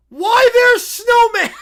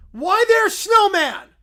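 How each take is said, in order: First: High, loud, slow delighted cry, broken up by a laugh; broken-English bear. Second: High, loud, slow, without laughing; broken-English bear. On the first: Little Brown Bear spotting Snowman on TV, shouting with glee. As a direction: shriek with glee. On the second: Little Brown Bear pointing at Snowman again, high and loud. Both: Acted. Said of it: "Why is he talking in broken English?".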